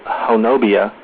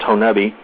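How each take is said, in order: First: The name has four syllables, ending in bee-ah. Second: The name has three syllables, ending in bee. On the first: The speaker calls it wrong. "if you were to try to pronounce it the way it's spelled, it would be" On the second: The speaker calls it right. "but it's pronounced Honubby"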